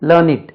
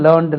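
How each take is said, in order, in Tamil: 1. இது இரண்டு அசையாக சொல்லப்படுகிறது, id என்ற ஒலியில் முடிகிறது. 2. இது ஒரு அசையாக சொல்லப்படுகிறது, d என்ற ஒலியில் முடிகிறது. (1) "இதே adjective வந்தா உச்சரிப்பு learn it" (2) "past tense, learn, learned"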